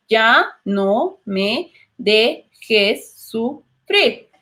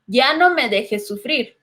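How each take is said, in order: First: Very slow, "Ya no me dejes sufrir" split into separate syllables. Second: Said in the usual way. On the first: Shown as a demonstration. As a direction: spell out each syllable with a pause. (muy lento, sílaba por sílaba) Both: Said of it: "lo separamos en sílabas".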